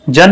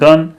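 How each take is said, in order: First: The word begins with a j sound. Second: The word begins with a g sound. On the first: The speaker calls it wrong. "जन नहीं" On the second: The speaker calls it right. "जी से ग पढ़ना है"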